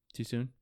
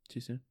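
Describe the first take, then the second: First: Said in the usual way. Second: Too soon? dropped to a near-murmur under the breath; much quieter aside. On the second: Shown as a demonstration. Podcaster teasing a Rams fan, repeated much quieter.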